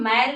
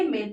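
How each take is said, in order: First: The vowel is open, like the a in 'mat'. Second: The vowel is closed, like the ay in 'day'. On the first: The speaker calls it wrong. "इसको हम मैल नहीं पढ़ेंगे" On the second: The speaker calls it right. "मेल पढ़ेंगे"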